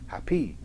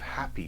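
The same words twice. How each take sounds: First: The stress is on the second syllable. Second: The stress is on the first syllable. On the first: The speaker calls it wrong. "if you try to reverse the stresses, it too sounds weird" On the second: The speaker calls it right. "strong weak"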